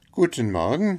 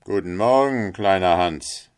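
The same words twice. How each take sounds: First: Higher greeting with a rising end; small fellow's high-pitched hello; friendly little Hans. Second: Loud, self-assured greeting; miller's louder hail to a lesser friend; hearty miller. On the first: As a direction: answer in a high, eager voice. Hans answers the miller. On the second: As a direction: call out a morning greeting, falling at the end. Miller hails little Hans. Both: Acted.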